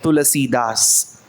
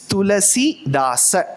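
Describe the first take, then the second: First: The name ends without a final vowel. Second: The name ends with a pronounced final vowel. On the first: It follows Hindi usage. "If you are conscious of speaking in Hindi, yes, you are right" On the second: It follows Sanskrit usage. "that last aksharam should be given the pronunciation"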